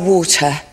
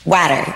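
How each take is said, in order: First: It is said with a British accent. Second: It is said with an American accent. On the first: "he taught me how to say water" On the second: "as an American, I say it like water"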